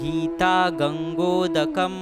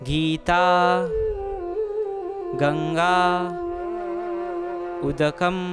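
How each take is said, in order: First: The last two words merge into one word. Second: Three separate words with the vowels kept apart. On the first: "जब इनकी संधि हो जाएगी तब हम कहेंगे" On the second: "तो अब यहाँ पे तीन शब्द है"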